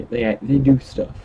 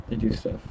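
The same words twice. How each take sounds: First: Said in the usual way. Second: Much higher, softer mock squeak of "They do stuff"; squeaky high repeat. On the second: Repeats the line in a new voice.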